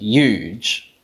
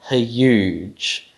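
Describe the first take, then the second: First: The h sound is dropped before the y. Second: An h sound comes before the y sound. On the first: "they just drop the glottal fricative" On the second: "a h followed by a y is a bit awkward"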